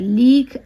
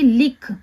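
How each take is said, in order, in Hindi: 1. स्वर खींचकर लंबा बोला गया है। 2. स्वर छोटा है और जल्दी बोला गया है। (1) "लिख ऐसे नहीं बोल रहे हैं" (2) "लिख एकदम जल्दी बोला जा रहा है"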